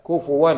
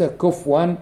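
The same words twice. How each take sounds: First: كفوا said kufuwan, with a clear damma on the fa; correct Hafs reading. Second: كفوا said kufwan, with the fa silent and no vowel; wrong reading. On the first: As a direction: read كفوا as ku-fu-wan, the fa rounded with u. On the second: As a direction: mispronounce كفوا as kufwan, fa without damma. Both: Shown as a demonstration. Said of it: "بضم الفاء".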